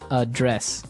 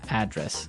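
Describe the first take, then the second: First: The stress is on the second syllable. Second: The stress is on the first syllable.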